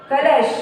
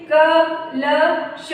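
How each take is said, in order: First: Said in the usual way. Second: कलश very slowly, in three separate sounds; sounded out. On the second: Shown as a demonstration. Teacher showing children how to join कलश, letter by letter. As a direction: pause after each letter of कलश. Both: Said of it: "इस तरह से जोड़ के पढ़ेंगे".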